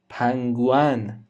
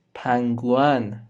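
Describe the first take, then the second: No difference in how they are said.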